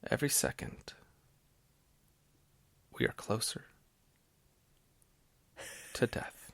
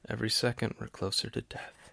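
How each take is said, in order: First: It is said dramatically, with a theatrical pause. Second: It is said plainly, in a casual conversational tone.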